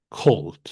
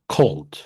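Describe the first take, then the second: First: The first k sound has a puff of air. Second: The first k sound has a puff of air.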